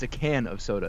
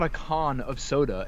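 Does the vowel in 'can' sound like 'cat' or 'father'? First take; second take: cat; father. First: The vowel in can sounds like cat. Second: The vowel in can sounds like father. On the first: The speaker calls it right. "it's a can of soda" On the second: The speaker calls it wrong. "It's not a con of soda"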